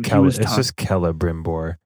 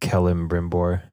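First: The name has no extra early m sound. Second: The name has an extra early m sound. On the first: The speaker calls it right. "It's just Celebrimbor" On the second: The speaker calls it wrong. "not Celebrimbor"

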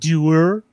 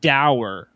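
First: The word sounds like doer. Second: The word rhymes with sour. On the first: "the English pronounce that word doer" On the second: "I always said the word dour, like sour"

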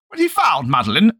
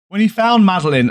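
First: It is read in an old-timey New York accent. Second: It is read in the speaker's normal voice.

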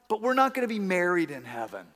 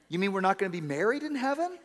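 First: The voice sounds sad and disappointed. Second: The voice sounds pleased and hopeful. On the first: Not being married in heaven is a loss. "And that made her sad" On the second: Not being married in heaven is welcome news. "It's all in the tone, right?"

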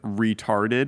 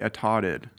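First: The word is said with strong R sounds. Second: The word is said with the R sounds dropped. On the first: It sounds more offensive. The speaker calls it wrong. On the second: It sounds slightly less offensive. The speaker calls it right. "You could take the hard R out of any word"

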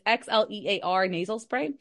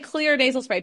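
First: The name is said with a separate 'ex' sound. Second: The name is said as one syllable, 'clear'. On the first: "And so it's Xlear nasal spray" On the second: "if I say clear nasal spray, people are going to look up clear"

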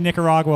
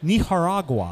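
First: It is said with an American pronunciation. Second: It is said with a Spanish-style pronunciation. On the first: The speaker says it the ordinary local way. "like a New Jerseyan" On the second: The speaker shows off a native-like pronunciation. "they pronounced it ethnically correct"

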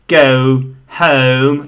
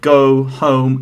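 First: The O diphthong is exaggerated and very posh. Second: The O diphthong is moderate and natural. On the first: The speaker sounds too posh and a bit silly. The speaker calls it wrong. "if you overdo it, ... then you are a bit too posh" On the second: The speaker sounds well-spoken. The speaker calls it right. "if you want to sound well, you can pronounce it like"

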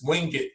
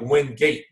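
First: The name is said the local way. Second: The name is said the way it is spelled. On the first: This is how people there actually say it. The speaker calls it right. "That's how they pronounce it" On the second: This is how the name looks written down. The speaker calls it wrong. "It looks like Wingate"

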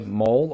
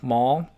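First: The vowel rhymes with hole. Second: The vowel rhymes with doll. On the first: "I'm just going to say Mole" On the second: "I guess Maul, like a doll"

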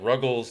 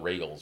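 First: The first vowel sounds like 'uh'. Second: The first vowel sounds like 'ay'. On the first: The speaker calls it wrong. "They get Ruggles" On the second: The speaker calls it right. "anything but Regals"

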